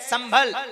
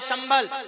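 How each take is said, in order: First: The word begins with a plain 's' sound. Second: The word begins with an 'sh' sound. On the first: It names the town in Moradabad. "इस मुरादाबाद वाले संबल में जो स है वो सीन है" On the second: It names the place of peace in the mantra. "ये जो मंत्र में शंबल है वो शाह से है"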